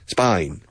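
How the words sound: The vowel sounds like 'eye', as in spine.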